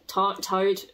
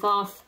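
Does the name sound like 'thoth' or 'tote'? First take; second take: tote; thoth. First: The name begins and ends with a 't' sound. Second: The name begins and ends with a 'th' sound. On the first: "but apparently Tote if you watch Crash Course Mythology" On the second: "I always pronounce it Thoth in my head"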